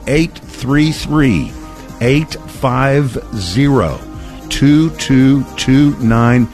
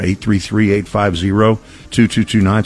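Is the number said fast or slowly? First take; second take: slowly; fast. First: The number is said slowly. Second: The number is said quickly.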